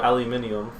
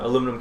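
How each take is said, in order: First: The word is said with five syllables. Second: The word is said with four syllables.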